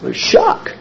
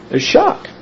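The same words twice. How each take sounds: First: "shock" breathed out with no voice; hushed shock. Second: Plain. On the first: Preacher telling the congregation how tragedy feels, whispered. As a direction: whisper "There's shock" as if stunned. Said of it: "preacher whispering shock". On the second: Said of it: "preacher stressing shock". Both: Shown as a demonstration.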